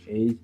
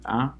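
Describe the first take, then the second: First: The letter is said with its English name. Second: The letter is said with its Kinyarwanda vowel. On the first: The speaker calls it wrong. "In English, you say" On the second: The speaker calls it right. "In Rwanda, you say"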